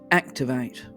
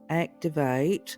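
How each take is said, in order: First: The word is said strongly and forcefully. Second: The word is said softly and weakly. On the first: The speaker calls it right. "It would be with conviction" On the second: The speaker calls it wrong. "a little pathetic activate"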